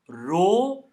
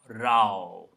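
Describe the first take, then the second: First: The vowel rhymes with toe. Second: The vowel rhymes with cow. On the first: It means a line or queue. "not as row or toe" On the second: It means a fight. "It sounds like cow"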